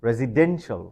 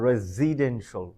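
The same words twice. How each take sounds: First: The stress is on the third syllable. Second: The stress is not on the third syllable. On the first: The speaker calls it right. "We have to stress the third syllable" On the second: The speaker calls it wrong. "Am I right? Oh no, my mistake"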